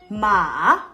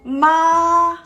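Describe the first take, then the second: First: The pitch dips down, then goes up. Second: The pitch stays level throughout. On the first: "The third tone, you are thinking" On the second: "This part is flat tone. Your pitch of the voice is flat"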